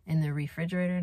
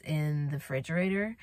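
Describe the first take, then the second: First: "refrigerator" with a clear "re" at the start; corrected pronunciation. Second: "refrigerator" without its first syllable, as "fridgerator"; slip of the tongue. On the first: Vlogger fixing her slip, "refrigerator" with every syllable. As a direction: say "refrigerator" in full, re-FRIDGE-er-ay-ter. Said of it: "not refrigerator". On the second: Vlogger listing foods, "refrigerator" slipping out as "fridgerator". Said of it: "and then I said refrigerator". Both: Real, not acted.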